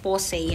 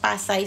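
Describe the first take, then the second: First: The first vowel sounds like 'oh'. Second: The first vowel sounds like 'ah'. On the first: This is how the makers say it. The speaker calls it right. "Yan ang bigkas nila" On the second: This is how other people say it. The speaker calls it wrong. "Sabi nung iba kasi Pasay yan ate"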